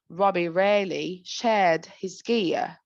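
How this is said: It is said in a British accent. "Let's start with the British"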